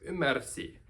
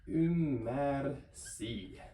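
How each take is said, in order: First: Said in the usual way. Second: "ymmärsi" drawn out slowly, every sound spelled out; slow careful demo. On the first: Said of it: "So ymmärsi". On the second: Shown as a demonstration. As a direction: stretch "ymmärsi" syllable by syllable. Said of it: "So we get".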